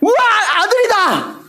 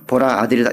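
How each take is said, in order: First: It is said with joyful excitement. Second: It is said flatly, without excitement.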